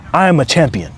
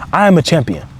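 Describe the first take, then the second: No difference in how they are said.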